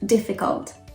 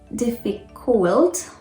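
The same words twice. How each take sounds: First: The last vowel is a weak schwa. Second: The last vowel is a clear U. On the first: The speaker calls it right. "It sounds like um, schwa" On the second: The speaker calls it wrong. "You don't say difficult"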